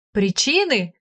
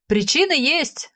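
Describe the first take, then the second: First: A touch tipsy, slurring the word; lightly drunk question; slightly slurred tongue. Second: Higher, slow, tipsy shout of Причины; slurred drunk exclamation. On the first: (слегка заплетающимся языком) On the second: (пьяно, заплетающимся языком восклицая) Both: A narrator's reading. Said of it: "воскликнул он слегка заплетающимся языком".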